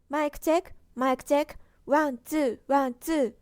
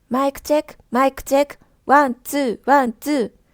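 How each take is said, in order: First: The voice is quieter with less graininess. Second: The voice is louder with more graininess. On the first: "オーディオインターフェースに接続したら音量が少し小さくなりました" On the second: "オーディオインターフェースに接続していない状態です"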